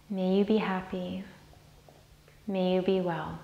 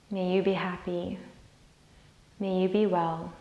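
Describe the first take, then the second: No difference in how they are said.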